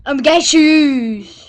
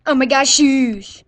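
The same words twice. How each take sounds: First: Slow loud fake sobbing wail; hammed-up bawling, dragged out; fake crying. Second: Drawn-out loud exclaim; slow loud wail. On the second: Pretend. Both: Mock injured goofing for camera.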